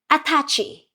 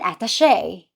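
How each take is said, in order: First: It is said with a Filipino pronunciation. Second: It is said with a Western pronunciation. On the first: "Filipinos call it an" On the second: "You call it an"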